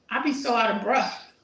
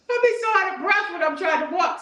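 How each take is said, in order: First: Said in the usual way. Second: Higher, louder and faster, stressing "be"; emphatic repeat. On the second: Real, not acted. Telling viewers about walking, repeated with quick emphatic energy. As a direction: blurt it out again with more energy.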